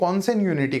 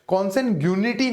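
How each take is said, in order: First: No g sound is pronounced in the word. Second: A g sound is pronounced in the word. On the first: The speaker calls it right. "कॉन्सेंट यूनिटी कहते हैं, जी silent है इसके अंदर" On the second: The speaker calls it wrong. "कॉन्सेंट यूनिटी नहीं है ये"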